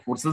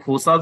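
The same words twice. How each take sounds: First: फोर्सेस said with a short 'ses' ending; usual pronunciation. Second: फोर्सास said with a long open 'aas' ending; variant pronunciation. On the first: Presenter gives the other common way, फोर्सेस, with a short 'ses' ending. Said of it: "कुछ लोग फोर्सेस बोलते हैं". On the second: Presenter cites how some people say फोर्सास, with an open 'aas' ending. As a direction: say फोर्सास, stretching the last vowel to 'aas'. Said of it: "कुछ लोग फोर्सास बोलते हैं". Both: Shown as a demonstration.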